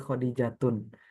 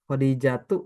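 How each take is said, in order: First: The name ends with an added n sound. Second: The name ends on a plain vowel. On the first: The speaker calls it wrong. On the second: The speaker calls it right.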